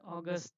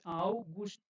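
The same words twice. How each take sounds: First: The word is said with English sounds. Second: The word is said with German sounds. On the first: The speaker calls it wrong. "Don't read as a August" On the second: The speaker calls it right. "this is German. This is August"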